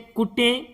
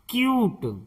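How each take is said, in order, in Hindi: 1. यह koo से शुरू होता है और teh पर खत्म होता है। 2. यह kyoo से शुरू होता है और t पर खत्म होता है। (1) "इसे कुटे या कटे नहीं पढ़ेंगे" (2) "इसे पढ़ेंगे क्यूट"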